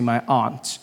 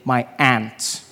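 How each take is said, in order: First: Aunt is said unlike the insect 'ant'. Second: Aunt is said like the insect 'ant'.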